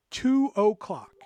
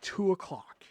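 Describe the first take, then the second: First: "Two o'clock" slowed right down, each word separate; "Two o'clock" drawn out for emphasis; emphatic repeat. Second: Said in the usual way. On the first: Real, not acted. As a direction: spell out "Two o'clock" slowly and higher.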